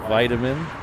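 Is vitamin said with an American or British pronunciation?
American. It is said with an American pronunciation. The speaker calls it right. "It is vitamin"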